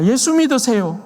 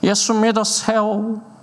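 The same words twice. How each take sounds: First: It is said in plain native Korean. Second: It is said with a foreign missionary's broken accent.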